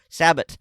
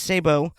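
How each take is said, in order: First: It is said with an Americanized pronunciation. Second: It is said with a French pronunciation. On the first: "if you want to Americanize it" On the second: "the proper French pronunciation is sabot"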